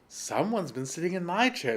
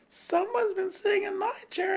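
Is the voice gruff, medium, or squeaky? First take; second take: medium; squeaky. First: The voice is medium in pitch and size. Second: The voice is high, small and squeaky. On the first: "in her middle sized voice" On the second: "squeaked the teeny weeny bear in his teeny weeny voice"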